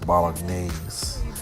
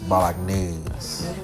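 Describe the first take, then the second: First: It is said in a plain English accent. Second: It is said in a put-on French-style accent.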